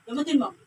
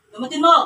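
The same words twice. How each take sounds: First: Said in the usual way. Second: Loud, insistent order; forceful command. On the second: Real, not acted. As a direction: order it sharply, raising your voice. Repeats order forcefully to the spirit. (malakas na pautos)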